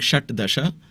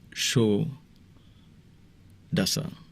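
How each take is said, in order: First: Two separate words with their full sounds. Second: One merged word with the sounds changed. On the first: The speaker calls it wrong. "instead of saying Shat Dasha" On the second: The speaker calls it right. "when you join two words, it sounds different. So it becomes"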